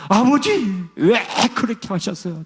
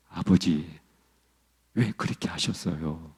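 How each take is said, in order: First: High-pitched pleading cry; imitating a man crying out to his father, pitched high; rising anguished cry. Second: Low, soft, hushed plea to father; a low hushed first cry of "아버지"; quiet first plea. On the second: Retold or imitated. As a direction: begin low and hushed, barely daring. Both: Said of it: "점점, 점점 톤이 올라가면서".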